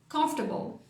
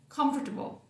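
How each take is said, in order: No difference in how they are said.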